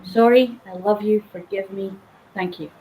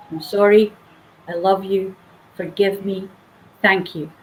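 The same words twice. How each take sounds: First: Gentle prayer. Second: Soft prayer. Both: Shown as a demonstration. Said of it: "a very simple prayer".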